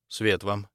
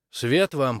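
First: Understated return greeting; nodded reply. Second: Lightly higher, brighter-pitched greeting; woman's greeting. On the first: Maximilian returns the dean's greeting, understated nodding reply. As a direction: answer the greeting evenly, with little lift. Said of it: "кивнул Максимилиан". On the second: The visiting woman greets Maximilian, greeting lift. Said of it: "поприветствовала женщина". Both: A narrator's reading.

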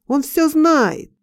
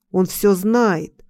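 First: Slow cry, pitched high; accusing cry. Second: Drawn-out, restrained accusing cry; narrated cry. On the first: Passers-by pointing at the dreamer, high drawn-out cry. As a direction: call it out higher, stretching the words. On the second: Passers-by accusing the dreamer in a dream, restrained cry. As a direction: call it out slowly, without real shouting. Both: A narrator's reading. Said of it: "и кричат".

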